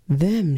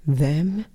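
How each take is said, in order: First: Flat statement. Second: Incredulous question. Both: Retold or imitated. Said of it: "she says".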